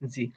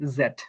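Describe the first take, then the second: First: The letter name sounds like 'zee'. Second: The letter name sounds like 'zed'. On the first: "আমেরিকানরা বলে জি" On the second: "ব্রিটিশটা বলে জেট"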